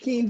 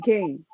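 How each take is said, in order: First: The vowel sounds like 'ee' in see. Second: The vowel sounds like 'ay' in say. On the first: This is the habitual local way of saying it. The speaker calls it wrong. "I call it Keen to this day" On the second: This is the real name. The speaker calls it right. "but it's really Kane"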